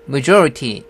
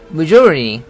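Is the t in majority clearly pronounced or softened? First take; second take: clearly pronounced; softened. First: The t sound is pronounced clearly. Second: The t sound is softened and weak. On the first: "majority 해도 되는데" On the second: "t를 죽이고 있습니다"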